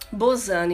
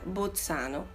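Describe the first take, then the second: First: The name is said with Portuguese pronunciation. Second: The name is said with Italian pronunciation. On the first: "em português" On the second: "Eu já leio com a pronúncia italiana"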